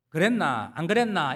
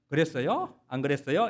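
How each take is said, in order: First: 경상도 사투리로; Gyeongsang dialect. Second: Seoul way with a polite rising 요 at the end; 서울말 흉내; Seoul speech. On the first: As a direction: speak it like a Jinju country boy. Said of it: "이렇게 말하다가 서울 가가지고는". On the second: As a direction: mimic a newcomer faking Seoul talk. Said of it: "이렇게 말하는". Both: Retold or imitated.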